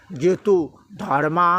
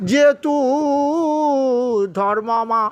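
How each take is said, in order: First: যেতু ধর্মা with a single ম, the wrong way; one m sound. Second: ধর্মমা with both ম clearly sounded; both m sounds. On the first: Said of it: "এখানে উচ্চারণ হবে ধর্মা, একটা উচ্চারণ হবে, কিন্তু না". (একটি ম দিয়ে ভুল উচ্চারণ ধর্মা) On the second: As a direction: sound each ম separately in ধর্মমা. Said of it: "দুটো উচ্চারণ করতে হবে". (দুটো ম স্পষ্ট করে ধর্মমা) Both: Shown as a demonstration.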